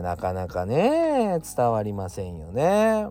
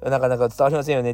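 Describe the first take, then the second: First: なかなか伝わりませんよね said slowly and drawn out. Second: なかなか伝わりませんよね rattled off quickly; quick restatement. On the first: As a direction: stretch out 伝わりませんよね slowly. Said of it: "なかなか伝わりませんよねっていうか". (ゆっくり引き伸ばして) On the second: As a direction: say 伝わりませんよね fast, as a quick rephrase. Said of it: "っていうか". (早口で言い直す) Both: Shown as a demonstration.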